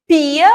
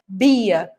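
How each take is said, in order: First: "pia" with a clear unvoiced p; voiceless P. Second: "bia" with a clear voiced b. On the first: Teacher contrasting pia against bia, clear P. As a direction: stress the first sound p in "pia". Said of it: "ao invés de escrever pia". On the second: Teacher contrasting bia against pia, voiced B. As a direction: stress the first sound b in "bia". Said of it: "ela escreva bia". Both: Shown as a demonstration.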